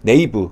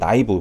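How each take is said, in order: First: The word begins with a 'nay' sound. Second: The word begins with a 'nigh' sound. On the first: This is the English-style reading. "영어식이면" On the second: This is the French-style reading. "프랑스식으로 하면"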